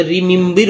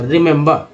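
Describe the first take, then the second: First: रिमेंबर said as rimimbir, every E read as ई; teacher shows the common mistake in रिमेंबर; wrong pronunciation. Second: रिमेंबर said rimembar, with ri, mem, bar; teacher gives the right रिमेंबर; correct pronunciation. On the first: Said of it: "हर सब जगह पढ़ते". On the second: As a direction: correct रिमेंबर, each E sounded differently. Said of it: "तीन ई तीन तरह से उच्चारण हुआ". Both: Shown as a demonstration.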